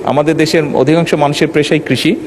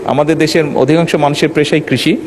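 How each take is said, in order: Both takes have the same delivery.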